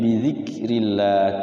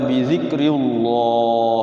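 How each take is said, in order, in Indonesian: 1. Kata ini dibaca dengan bunyi tipis. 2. Kata ini dibaca dengan bunyi tebal. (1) "Tapi bizikrillah tipis" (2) "Jangan dibaca bizikrillah ya tebal, enggak boleh"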